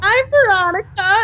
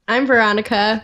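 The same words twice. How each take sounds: First: The voice sounds lively and excited. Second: The voice sounds flat and deep.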